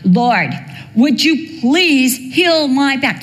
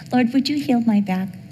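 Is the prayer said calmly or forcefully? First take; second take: forcefully; calmly. First: It is said strongly and forcefully. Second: It is said calmly and quietly.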